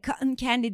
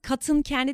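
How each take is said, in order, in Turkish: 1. cotton içindeki t yutuluyor. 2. cotton içindeki t açıkça telaffuz ediliyor. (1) "cotton candy diye söylüyor" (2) "cotton candy değil de"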